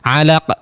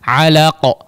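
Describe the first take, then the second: First: The final q bounce sounds thin and light. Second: The final q bounce sounds thick and heavy. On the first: The speaker calls it wrong. "jangan hanya alaqa" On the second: The speaker calls it right. "maka qalqalahnya juga tebal, suara pantulannya pun menjadi tebal"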